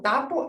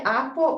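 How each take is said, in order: First: The first consonant is a t sound instead. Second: The first consonant is left out entirely. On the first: "lo sustituye por otras de forma incorrecta" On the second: "omite ciertos sonidos"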